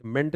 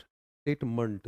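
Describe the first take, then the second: First: मेंट with a full "e", as "ment"; "ment" with an unreduced vowel; full-vowel wrong ending. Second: स्टेटमेंट slowly, ending in a weak "munt"; slow STATE-munt, schwa in the last syllable; reduced final vowel. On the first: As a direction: say मेंट with a clear E, not reduced. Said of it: "मेंट नहीं बोल रहा मैं". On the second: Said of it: "देख रहे हो ना आवाज". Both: Shown as a demonstration.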